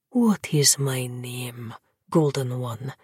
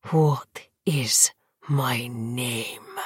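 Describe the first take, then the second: First: Slow low breathed question; breathy whisper. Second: Slow fierce whispered demand; whisper yelling. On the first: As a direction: breathe it slowly, lower. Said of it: "that dark prince breathed". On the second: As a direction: hiss it, slow and furious. Vampire demands again, wroth. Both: Acted.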